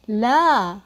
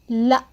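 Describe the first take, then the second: First: لا with a long drawn-out double A; long classical la. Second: لا with a short vowel and a stop at the end; short spoken la. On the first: Teacher models classical لا for students, long vowel. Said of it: "This is a long vowel, double A". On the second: Teacher models Levantine spoken لا, short vowel then pause. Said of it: "we pause like this". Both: Shown as a demonstration.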